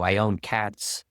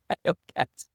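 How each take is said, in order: First: Said in the usual way. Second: I own cats said high and squeezed with a laugh; high squeaky joke take. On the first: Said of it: "plain take before the joke". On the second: Pretend. Pretend young man jokes about owning cats, high and laughing. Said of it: "repeated as a joke".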